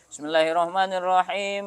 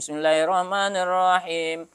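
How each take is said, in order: First: It is recited at a fast pace. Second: It is recited at a slower, measured pace.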